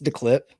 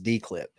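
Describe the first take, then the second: First: The first word sounds like the word 'the'. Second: The first word sounds like the letter D. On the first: The speaker calls it right. "It's the clip" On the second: The speaker calls it wrong. "We've been mispronouncing it for about three or four months as D-clip"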